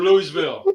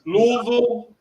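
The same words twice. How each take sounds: First: "Louisville" as LOO-ee-vil; "Louisville" ending in a clear VIL; spelled-out pronunciation. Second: "Louisville" squeezed into LOO-vul; "Louisville" with no EE in the middle; local pronunciation. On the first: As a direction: give "Louisville" three full syllables. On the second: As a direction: say "Louisville" in two syllables. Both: Shown as a demonstration. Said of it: "Louisville or Louisville".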